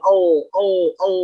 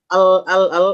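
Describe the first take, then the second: First: The L is heavy, with the tongue back raised. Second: The L is light, with the tongue back flat. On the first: "ketika naik aja pangkalnya bakal tebal" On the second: "itu tipis"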